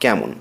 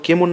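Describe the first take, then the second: First: The first vowel is an open ae sound. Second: The first vowel is a close e sound. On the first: The speaker calls it right. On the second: The speaker calls it wrong.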